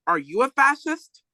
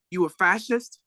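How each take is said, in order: First: Higher, louder comeback question. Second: Said in the usual way. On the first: Retold or imitated. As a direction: fire it back, topping the cop. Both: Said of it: "Then Huey got louder".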